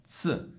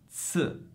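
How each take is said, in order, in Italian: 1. La z è un suono sordo, ts. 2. La z è un suono sordo, ts.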